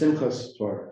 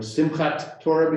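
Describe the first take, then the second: First: The first word ends with an s sound. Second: The first word ends with a t sound. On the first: This is the Yiddish form. "becomes Simchas Torah" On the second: This is the Hebrew form. "a T at the end often becomes an S"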